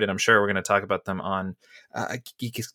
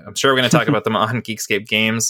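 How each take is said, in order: First: Interrupted by a hiccup; words cut off by hiccups. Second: Said in the usual way. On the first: Real, not acted. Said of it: "got the hiccups". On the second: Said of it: "excuse me, got the hiccups".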